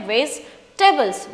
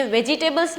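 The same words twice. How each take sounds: First: वेजिटेबल्स said slowly as "vej-ta-bals", with three syllables; correct pronunciation. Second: वेजिटेबल्स said the wrong way, as "ve-ji-te-bals" with every syllable spelled out; wrong pronunciation. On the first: Teacher showing students the correct वेजिटेबल्स, slow and careful. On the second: Teacher imitating the students' mistake, a spelled-out वेजिटेबल्स. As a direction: say वेजिटेबल्स the way it should not be said, as "ve-ji-table". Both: Shown as a demonstration. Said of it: "ये वेजिटेबल्स नहीं होता है".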